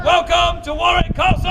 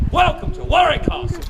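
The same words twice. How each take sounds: First: Loud, high showman's holler; insistent, full-voiced crowd rouser; rousing shouted welcome. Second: Higher-pitched showman's announcement; rousing welcome. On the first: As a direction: belt it out for a bigger cheer. Repeats welcome, demanding a bigger cheer. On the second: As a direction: call out a welcome to the crowd. Showman cueing the crowd's cheer. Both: Real, not acted.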